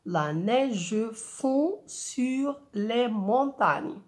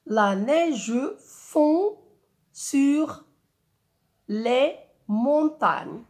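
First: Very slow, even beats with "neige" as nei-ge; slow recited verse. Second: "La neige fond" very slow, each syllable set apart; syllable-counted verse. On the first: Teacher recites the verse again to count its eight syllables. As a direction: recite the line slowly, one beat per syllable. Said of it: "Huit syllabes". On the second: Teacher counts syllables of the verse for pupils. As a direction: chant the line syllable by syllable. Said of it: "On a combien de syllabes?". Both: Shown as a demonstration.

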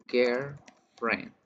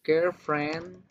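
First: Put-on girlfriend, ударение на friend, тише и с падением; two words, land on friend; stress on friend. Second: Put-on Girlfriend, ударение на girl с подъёмом; one word, weight on girl; stress on girl. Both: Shown as a demonstration. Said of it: "se va a pronunciar diferente".

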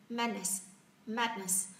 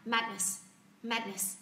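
Both takes have the same delivery.

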